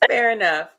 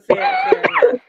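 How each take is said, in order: First: Said in the usual way. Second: Very high, squeaky falsetto; silly squeaky voice. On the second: Pretend. Repeats phrase in silly high voice.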